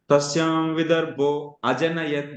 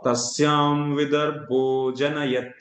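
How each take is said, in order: First: An extra vowel is pronounced before janayat. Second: The vowel before janayat is dropped, joining the words. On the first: The sandhi is broken and a syllable is added. The speaker calls it wrong. "Then that is wrong actually" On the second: The sandhi is kept and the meter holds. The speaker calls it right. "we should always call"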